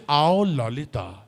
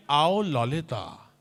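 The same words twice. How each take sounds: First: Slow, lower sleazy call; Shakti Kapoor line. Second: Slow, lower oily call; Shakti Kapoor line. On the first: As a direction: beckon like a cheesy villain. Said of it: "Action, just say". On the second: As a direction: lure her in a villain voice. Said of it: "इतना ही बोलिए". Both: Shown as a demonstration. (धीमी, चिपचिपी पुकार)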